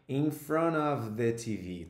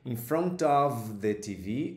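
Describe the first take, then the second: First: The T at the end of 'front' is dropped. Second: The T at the end of 'front' is pronounced. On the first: "você pode simplesmente eliminá-lo" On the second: "você pode pronunciar esse T aqui"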